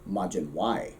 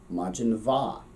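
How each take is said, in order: First: The second word sounds like a Y sound. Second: The second word begins with a V sound. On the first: This is the northern dialect form. "Ulster, it keeps the W, but Ulster has interesting vowels. And so they would pronounce that Y" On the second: This is the southern dialect form. "if we were speaking Munster, Southern Irish, uh, that would actually make a V sound"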